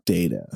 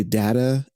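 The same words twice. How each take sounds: First: "data" said DAY-tuh; the other pronunciation. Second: "data" said DAT-uh; his own pronunciation. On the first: Guest giving the contrasting way, "data" as DAY-tuh. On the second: Guest contrasting two ways, "data" as DAT-uh. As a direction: say "data" with the a of "cat". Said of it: "I say data". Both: Shown as a demonstration.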